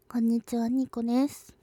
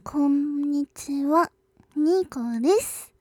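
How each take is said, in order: First: The greeting is spoken at a normal pace. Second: The greeting is spoken at a slow pace.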